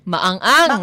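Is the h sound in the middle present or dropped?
dropped. The h sound in the middle is dropped. "yung lacking ng age"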